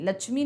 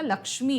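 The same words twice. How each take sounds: First: The middle cluster sounds like 'chh'. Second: The middle cluster sounds like 'ksh'. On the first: The speaker calls it wrong. "लक्ष्मी नहीं होता" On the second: The speaker calls it right. "लक्ष्मी होता है"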